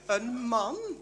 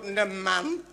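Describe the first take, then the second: First: It is said in a soft, sweet tone. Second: It is said in a curt, dismissive tone. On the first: The speaker shows affection and respect for men. The speaker calls it right. "In plaats van je lief, een man?" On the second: The speaker shows little respect for men. The speaker calls it wrong. "Jij zegt toch ook maar een man?"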